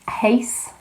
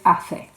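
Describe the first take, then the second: First: The middle consonant is said without a th sound. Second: The middle consonant is said as a th sound. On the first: The speaker calls it wrong. "want to pronounce it as eighth" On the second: The speaker calls it right. "We have that th sound there in the Spanish"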